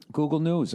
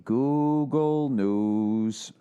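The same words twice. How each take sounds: First: Said in the usual way. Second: Very slow, stretched Google News; slowly stretched out, "Google News" read like a header; drawn-out announcement. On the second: Shown as a demonstration. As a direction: draw out Google News like a title.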